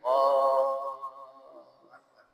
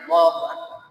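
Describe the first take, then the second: First: It is said slowly and calmly. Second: It is said quickly and hurriedly.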